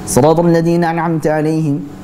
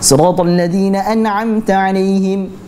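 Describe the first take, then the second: First: It is read fast with blurred, unclear letters. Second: It is read fast with every letter clear. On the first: The speaker calls it wrong. "dia cepat tapi tidak jelas membacanya" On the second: The speaker calls it right. "Harusnya tetap jelas"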